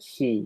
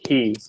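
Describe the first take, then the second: First: The h is made near the teeth, sounding shallow. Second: The h is made deep in the throat. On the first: The speaker calls it wrong. "you don't want to pronounce it up here like he" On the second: The speaker calls it right. "You want to say he, like back here"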